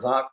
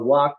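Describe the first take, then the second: First: The word begins with a V sound. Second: The word begins with a W sound. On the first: "or V" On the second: "pronounced like W"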